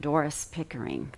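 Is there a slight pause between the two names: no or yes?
yes. A slight pause separates the two names. The speaker calls it right. "There's this ever so slight pause there"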